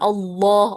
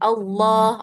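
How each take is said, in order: First: The word is said with an overly heavy, deep sound. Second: The word is said heavy but not exaggerated. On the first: The speaker calls it wrong. "jangan terlalu tebal ... jangan Allah" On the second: The speaker calls it right. "Yang betul Allah"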